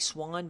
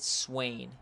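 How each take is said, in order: First: The vowel sounds like 'ah'. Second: The vowel sounds like 'ay'. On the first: This is how the spelling suggests it is said. The speaker calls it wrong. "It looks like Swan" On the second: This is how the player's name is actually said. The speaker calls it right. "but we do pronounce it Swain"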